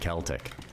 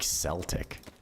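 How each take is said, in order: First: The word begins with a hard K sound. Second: The word begins with a soft S sound. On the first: "Say it with like a, like a K sound" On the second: "I swear in Scotland, people say, like"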